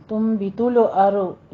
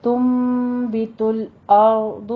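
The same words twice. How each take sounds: First: تم بھی تل ارض with stray vowels after ل and ر; wrong bouncing consonants. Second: تم بھی تل ارض slow, with a long hummed م; measured recitation of تم بھی تل ارض, ل and ر unbounced; correct still consonants. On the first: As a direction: quickly misread تل ارض as "tulo-aro". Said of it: "نہیں کہنا ہے". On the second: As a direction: rest on ل and ر in تل ارض without any echo. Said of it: "ان کے اوپر قلقلے نہیں کرنے ہیں". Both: Shown as a demonstration.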